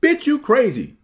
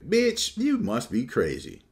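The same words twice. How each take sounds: First: Much higher, louder sassy squeal; an outsider awkwardly joining the women's banter, shrill; mock sassy shout. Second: Put-on playful high-pitched girlfriend tease, pitch jumping up on Bitch; one friend playfully teasing another at a hangout. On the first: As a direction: overdo the sassy line so it lands wrong. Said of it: "I can't be like". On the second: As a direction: tease her like a girlfriend would. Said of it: "and they go".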